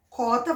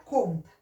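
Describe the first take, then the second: First: Said in the usual way. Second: "conta" with a nasal "on", marking the difference from "cota"; nasal ending shown. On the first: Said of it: "vai virar conta". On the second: Shown as a demonstration. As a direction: make the nasal in "conta" audible. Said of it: "Vai ficar cota". ("conta" com o "on" nasal bem marcado)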